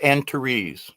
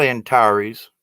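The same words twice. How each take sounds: First: Antares slowly, ending in a long REEZ; new-fangled pronunciation. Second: Said in the usual way. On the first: Shown as a demonstration. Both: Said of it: "They were calling it Antares".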